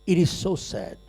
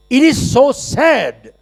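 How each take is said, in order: First: Softer, sorrowful repeat; soft sad echo. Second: Higher, louder and slow; emphatic declaration. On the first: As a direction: let it fall away in sorrow. Same words, said again softly. (धीमी, उदास गूँज) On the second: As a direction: proclaim it to the whole hall. Emphatic sad remark, repeated. (ऊँची, ज़ोरदार, धीमी घोषणा) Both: Acted.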